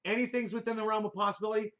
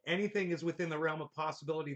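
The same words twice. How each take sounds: First: Quick, incredulous throwback of a comment; objecting echo. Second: Quick, low-key read; reading a comment aloud. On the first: Retold or imitated. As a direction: repeat it back in disbelief. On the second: Real, not acted. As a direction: read it out quickly without investment. Reads a viewer comment aloud.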